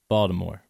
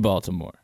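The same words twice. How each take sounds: First: The syllables are run together and reduced. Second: Every syllable is pronounced clearly and fully. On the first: "If I just say it" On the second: "how I tried to enunciate the word Baltimore for you"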